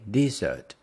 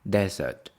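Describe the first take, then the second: First: The stress is on the second syllable. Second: The stress is on the first syllable. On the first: A sweet dish. "The stress is on the second one" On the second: A dry place. "Stress is on the first one"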